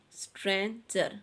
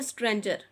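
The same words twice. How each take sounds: First: stranger split in two, stran and jer; syllable by syllable. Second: Said in the usual way. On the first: Shown as a demonstration. Teacher showing children a two-syllable word, syllables separated. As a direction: break stranger cleanly between its two syllables. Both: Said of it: "आपने इसके इस तरह से syllables".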